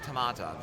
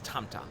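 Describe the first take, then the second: First: The name is said with an extra middle vowel. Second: The name is said without a middle vowel. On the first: The speaker calls it wrong. "one person mispronounced it" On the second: The speaker calls it right. "It's [name], is her name"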